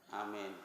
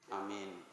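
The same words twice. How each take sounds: Both takes have the same delivery.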